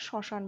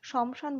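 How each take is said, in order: First: শ্মশান as "sho-shan", without m; silent ম. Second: শমশান as "shom-shan", m sounded; as written. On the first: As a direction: skip the m sound in শ্মশান. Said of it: "শ্মশান বলি". (শ্মশান, ম উহ্য রেখে "শশান") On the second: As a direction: pronounce the ম in শমশান. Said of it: "শমশান বলি না". (শমশান, ম স্পষ্ট উচ্চারণ করে) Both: Shown as a demonstration.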